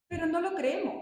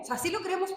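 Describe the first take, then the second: First: No lifted and stressed. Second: "sí" pitched higher and stressed. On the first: Speaker to the audience about faith, stressing "no". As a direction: lean on the word "no" in "no lo creemos". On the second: Correcting herself to the audience, stressing "sí". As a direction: land hard on "sí" in "sí lo creemos". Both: Shown as a demonstration.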